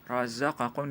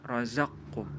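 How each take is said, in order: First: The vowel after the q sound is kept. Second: The q sound merges straight into the k. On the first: This is the word as originally written. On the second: This is how the word is recited.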